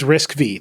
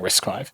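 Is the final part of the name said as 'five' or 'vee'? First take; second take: vee; five. First: The final part is said as the letter 'vee'. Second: The final part is said as 'five'. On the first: The speaker calls it wrong. "I said it was Risk V the other day" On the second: The speaker calls it right. "walking around the office saying Risk Five"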